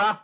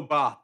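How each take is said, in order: First: Bath with a short flat "a"; first variant. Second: Bath with a long "ah"; second variant. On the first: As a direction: say bath with the vowel of "cat". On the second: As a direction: say bath as "bahth". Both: Shown as a demonstration. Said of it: "do you say bath or bath".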